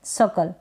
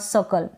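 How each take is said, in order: The two takes are said the same way.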